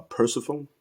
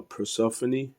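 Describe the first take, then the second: First: Persephone said PER-suh-fone; mispronunciation. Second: Persephone said per-SEF-uh-nee; four syllables in Persephone, ending in "nee"; alternative pronunciation. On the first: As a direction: end Persephone like "phone", final e silent. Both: Shown as a demonstration. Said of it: "I believe that's how you".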